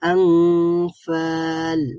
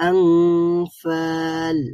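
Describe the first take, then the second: First: The n sound is hidden and nasalized. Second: The n sound is hidden and nasalized.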